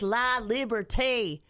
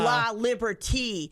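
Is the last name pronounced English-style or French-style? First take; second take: French; English. First: The name ends with a French 'ay' sound. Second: The name ends with an English 'ee' sound. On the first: The speaker calls it right. "It should be Liberté. Needs a little finesse there" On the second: The speaker calls it wrong. "You're like La Liberty. ... You sound like you're a hick"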